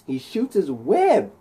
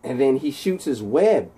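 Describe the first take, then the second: First: "He shoots his web" slower, with a high swoop on "web"; dramatic repeat. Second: Said in the usual way. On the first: A narrator's reading. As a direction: stretch out "web" for emphasis. Repeats key action for drama.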